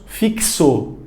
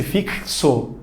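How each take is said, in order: First: Fixo said with the x as a clear ks; x sounded as ks. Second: Fixo repeated softly, the x a clear ks; soft ks demo. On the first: Teacher demonstrating the ks in Fixo. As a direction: join a k and an s in Fixo. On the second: Teacher to class, softly repeating Fixo with ks. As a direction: repeat Fixo quietly, showing the k and s. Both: Shown as a demonstration. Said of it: "emenda um K e um S".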